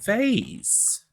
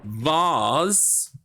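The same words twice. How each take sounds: First: "vase" with an ay, rhyming with days; "vase" as VAYZ. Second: "vase" with a long ah, rhyming with cars; "vase" as VAHZ. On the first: Streamer offering chat the other option, "vase" pronounced vayz. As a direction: say "vase" as vayz, high and falling. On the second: Streamer offering chat a poll option, "vase" pronounced vahz. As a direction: say "vase" as vahz, rising in question. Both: Shown as a demonstration. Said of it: "how do you pronounce".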